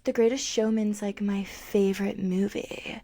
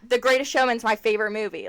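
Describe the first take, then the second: First: It is said in a soft, breathy voice. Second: It is said in a full, chesty voice. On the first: The speaker calls it wrong. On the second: The speaker calls it right.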